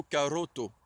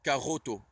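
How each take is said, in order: First: Caroto with a rolled tongue r. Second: Caroto with a French throat r. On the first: Teacher showing the rolled r in caroto, tongue-trilled r. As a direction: roll the r in caroto. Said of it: "on dira plutôt caroto". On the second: Teacher showing how French speakers say caroto, throat r. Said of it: "souvent les Français le prononceront r, comme ça". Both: Shown as a demonstration.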